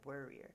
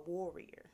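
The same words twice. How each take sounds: First: The stress is not on the first syllable. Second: The stress is on the first syllable. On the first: The speaker calls it wrong. "I feel like I'm still saying that kind of like warrior" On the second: The speaker calls it right. "Make sure I put the emphasis on the war"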